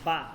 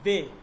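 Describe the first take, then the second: First: The letter name ends in an 'a' vowel. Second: The letter name ends in an 'e' vowel. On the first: This is the Arabic way to name the letter. The speaker calls it wrong. "Not বা। আরবিতে আমরা বা বলি" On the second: This is the Urdu way to name the letter. The speaker calls it right. "উর্দুতে আমরা বলবো কি বে"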